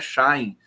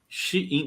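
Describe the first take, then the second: First: The name is said as one syllable, like 'shine'. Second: The name is said as two syllables, 'she-in'. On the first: The speaker calls it wrong. "não é Shine" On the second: The speaker calls it right. "é Shein"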